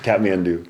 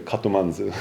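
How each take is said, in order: First: The name is said with English-style sounds. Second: The name is said with Japanese-style sounds. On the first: "that's Kathmandu" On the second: "The Japanese people kept saying Katomanzu"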